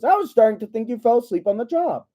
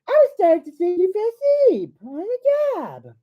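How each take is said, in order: First: It is said in the reader's normal voice. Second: It is said in a put-on smooth female voice.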